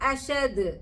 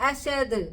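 The two takes are said the same way.

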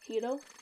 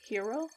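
First: It is said with a Japanese-style pronunciation. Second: It is said like the English word hero. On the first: The speaker calls it right. "in Japanese is Hiro" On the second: The speaker calls it wrong. "Instead of hero"

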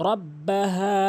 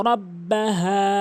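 Both takes have the same delivery.

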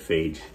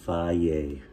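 First: The word ends with a 'j' sound. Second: The word ends on a plain vowel sound. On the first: "I always said phage" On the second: "You know you pronounce this faye?"

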